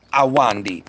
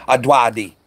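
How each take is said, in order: First: Awandi with an n and no d before the w; new pronunciation. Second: Adwadi with a d before the w and no n; wrong pronunciation. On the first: Streamer practising a viewer's name, careful Awandi. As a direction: say "Awandi", sounding the n before the final syllable. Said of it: "Is that right?". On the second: Streamer showing his earlier mistake, saying Adwadi. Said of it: "I can see how I was getting it wrong". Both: Shown as a demonstration.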